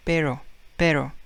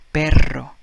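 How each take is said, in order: First: Pero with a single tapped r, no trill; English pero. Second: Perro with a trilled rr, louder; Spanish perro. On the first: Teacher contrasting English pero with Spanish. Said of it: "in English we say pero". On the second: Teacher giving the Spanish perro after English pero. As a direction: roll the rr hard in perro. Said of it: "But in Spanish it's perro". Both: Shown as a demonstration.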